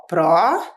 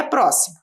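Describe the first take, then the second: First: "pró-si-mo" syllable by syllable, long pauses between; split into syllables. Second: Said in the usual way. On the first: Shown as a demonstration. Teacher dividing the first word for pupils, "pró-si-mo" split into syllables. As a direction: say "pró-si-mo" in three separate beats. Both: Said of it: "separar a palavra em sílabas".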